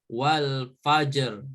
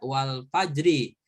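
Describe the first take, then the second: First: The word ends on the consonant r. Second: The word ends with a short i vowel. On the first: The reader stops at this word. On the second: The word is read with its full vowel marking. "kalau dibaca secara lengkap harokat"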